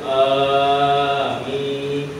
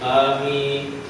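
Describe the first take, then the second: First: The middle vowel is drawn out long. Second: The first vowel is said short. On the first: "Tengah jadi panjang dulu" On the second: "depan pendek"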